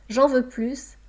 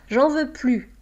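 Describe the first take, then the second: First: The final S of plus is pronounced. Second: The final S of plus is silent. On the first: I want more. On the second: I don't want any more. "négation"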